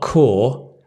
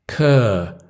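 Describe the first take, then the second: First: The vowel is long and rounded, like 'core'. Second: The vowel is short and central, like 'cur'. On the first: The speaker calls it wrong. "Not core" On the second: The speaker calls it right. "Cur, cur"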